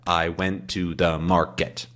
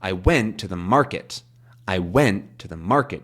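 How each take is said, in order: First: "I went to the market" with every syllable stressed the same, quiet and even; even syllables demo. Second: "went" and "market" peaking in "I went to the market"; rolling peaks and valleys; natural sentence stress. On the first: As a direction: clap out each syllable evenly. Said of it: "We can clap those out". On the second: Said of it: "You hear how there's sort of a da". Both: Shown as a demonstration.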